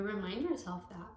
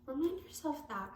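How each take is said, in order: First: Said in the usual way. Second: Pitched up, leaning on remind; emphatic repeat. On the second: Shown as a demonstration. Tarot reader presses the advice on the viewer, emphatic and higher. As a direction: say it again higher, pressing the point home.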